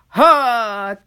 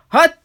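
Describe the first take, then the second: First: The sound is held and drawn out long. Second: The sound is a short, clipped burst. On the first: "伸ばします" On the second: "はっと出たこれを"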